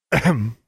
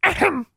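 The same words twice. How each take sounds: First: Deliberate throat-clearing interjection; slightly raised, interrupting ahem; pointed "ahem". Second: Very high bird-voiced "ahem"; squeaky parroted ahem; mimicking raven. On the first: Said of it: "Maximilian repeated". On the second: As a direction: echo the throat clearing like a talking bird. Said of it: "Charlie mimicked Maximilian almost perfectly". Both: A narrator's reading.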